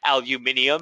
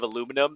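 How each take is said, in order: First: It is said in a British accent. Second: It is said in an American accent. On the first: "when you hear him say like aluminium" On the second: "instead of aluminum"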